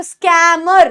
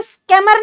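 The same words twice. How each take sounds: First: स्कैमर with a stretched open "skaa-mer"; स्कैमर, vowel long and open. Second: स्कैमर clipped to "skemmer"; स्कैमर with a quick, closed vowel; wrong short vowel. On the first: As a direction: hold the ऐ in स्कैमर. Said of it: "ए की sound लंबी". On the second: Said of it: "स्कैमर नहीं बोलते". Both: Shown as a demonstration.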